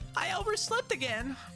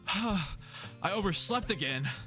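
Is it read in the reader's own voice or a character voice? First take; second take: character voice; own voice. First: It is read in a put-on character voice. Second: It is read in the reader's own voice.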